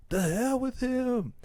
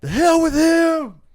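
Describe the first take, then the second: First: High, drawn-out yell kept down in volume; held-back mock yell. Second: High, drawn-out full-voice yell; acted yell. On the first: Retelling the son's outburst at absent dad, held-back yell. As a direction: imitate a yell without the full volume. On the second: Son rejecting absent dad to Uncle Phil, acted yell. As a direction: burst out in wounded defiance, much louder. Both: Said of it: "and he yells at him".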